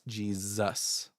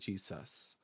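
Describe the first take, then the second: First: The middle consonant is a buzzing Z sound. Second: The middle consonant is a hissing S sound. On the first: "an S gets turned into like a Z sound" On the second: "instead of"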